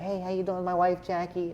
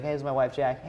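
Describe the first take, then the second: First: High, badly faked comedian voice; Adam Sandler. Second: Said in the usual way. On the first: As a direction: do a terrible celebrity impression. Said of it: "That's my terrible Adam Sandler impression". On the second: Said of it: "my terrible Adam Sandler impression".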